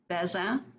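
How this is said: The name is pronounced the French way. "is the French pronunciation"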